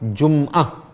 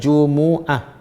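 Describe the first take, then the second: First: The m is closed with no vowel after it. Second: The m is followed by a short u vowel. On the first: The speaker calls it wrong. "Bukan berbaris mati. Bukan Jum'ah" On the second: The speaker calls it right. "Yang betul ialah Jumu'ah. Mim ber, berbaris depan"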